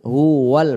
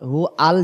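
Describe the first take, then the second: First: হু ওয়াল with a clear w glide into ওয়াল; correct pronunciation. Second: হু আল said with the w dropped, as two parts hu al; deliberately slurs হু আল without the w glide; wrong pronunciation. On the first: Teacher modelling the correct reading, হু ওয়াল with a clear w. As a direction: join হু ওয়াল smoothly through the w. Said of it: "উচ্চারণ হবে হু ওয়াল". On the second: Teacher demonstrating the mistake to avoid, হু আল without w. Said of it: "হু আল যেন উচ্চারণ না হয়". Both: Shown as a demonstration.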